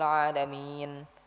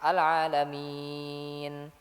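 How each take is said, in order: First: The long vowel is held for three beats. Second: The long vowel is held for four beats. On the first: The speaker calls it wrong. "Yang salah itu dibaca dengan tiga harokat" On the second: The speaker calls it right. "empat harokat"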